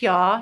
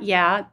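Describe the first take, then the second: First: The vowel does not sound like 'yak'. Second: The vowel sounds like the one in 'yak'. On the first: The speaker calls it right. "it's pronounced Yah" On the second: The speaker calls it wrong. "not Yah. It's not a yak"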